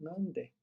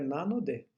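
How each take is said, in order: First: The middle syllable is dropped in fast speech. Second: All three syllables are said in full. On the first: "quando fala rápido, ele fala nande" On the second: "o certo é nanode"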